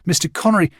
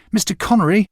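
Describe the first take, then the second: First: Put-on boy calling after Connery on the beach, first call. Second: Higher and louder still, urgent shout; boy calling after Connery again, the louder shout; louder second call. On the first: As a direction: call out to him across the sand. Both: A narrator's reading. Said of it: "I called to him".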